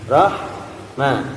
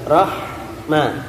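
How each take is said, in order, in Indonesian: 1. Bunyi h itu desiran angin yang halus. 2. Bunyi h itu desiran angin yang halus.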